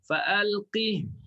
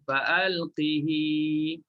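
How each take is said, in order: First: The word ends on a clipped h sound. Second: The word ends with a lengthened i vowel. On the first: This is one reading tradition's version. "Hafs baca matikan ha" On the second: This is another reading tradition's version. "Bagi Warasy baca dengan silah"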